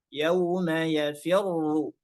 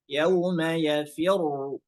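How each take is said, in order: Both takes have the same delivery.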